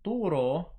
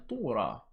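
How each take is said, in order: First: The word ends in an o vowel. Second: The word ends in an a vowel. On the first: "in the Western pronunciation" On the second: "those were the Eastern words"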